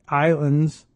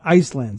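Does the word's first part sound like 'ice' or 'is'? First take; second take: is; ice. First: The first part sounds like 'is'. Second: The first part sounds like 'ice'. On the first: The speaker calls it wrong. "I said islands because it's I S L A N D S" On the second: The speaker calls it right. "but it's probably Iceland"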